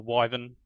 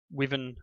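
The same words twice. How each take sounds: First: Wyvern said with a long i, "WHY-vern"; long-i pronunciation. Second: Wyvern said with a short i, "WIV-ern"; short-i pronunciation. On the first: Gamer offering the other pronunciation, wyvern as "WHY-vern". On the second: Unsure gamer naming crafting materials, wyvern as "WIV-ern". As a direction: say wyvern so it starts like "give". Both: Shown as a demonstration. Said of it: "depending on how you pronounce it".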